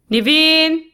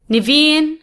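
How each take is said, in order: First: Urgent shout. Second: High raised call from another room. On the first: Urgent call from sickroom. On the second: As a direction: call the name across the house. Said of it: "the soft voice calls again". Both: A narrator's reading.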